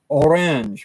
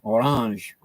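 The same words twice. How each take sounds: First: Its vowels sound like modern English. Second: Its vowels sound French-like. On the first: This is how the word is said today. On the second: This is how the word was said in older English.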